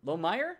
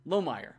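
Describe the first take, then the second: First: Lomayer tried out with a rising, unsure tune; questioning pronunciation. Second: Lomayer said with a firm falling tune; settled pronunciation. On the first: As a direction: ask it as if checking the name. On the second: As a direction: state the name as decided. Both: Shown as a demonstration. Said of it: "I think it's Lomayer".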